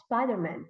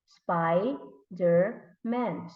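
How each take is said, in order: First: Said in the usual way. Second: Very slow, split into SPI - DER - MAN; syllable by syllable. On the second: Shown as a demonstration. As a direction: break "Spider-Man" into three separate beats. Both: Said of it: "if we're going to put it together".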